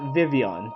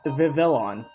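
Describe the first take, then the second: First: The L sounds in the name are silent. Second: The L sounds in the name are pronounced. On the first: The speaker calls it right. "The L's are silent" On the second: The speaker calls it wrong. "I thought it was pronou- uh, pronounced Vivillon"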